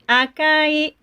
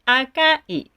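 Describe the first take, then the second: First: The pitch stays flat with no drop. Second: The pitch drops partway through the word. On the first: "Mm-mm-mm is good" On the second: "Mm-mm-mm is nowadays okay"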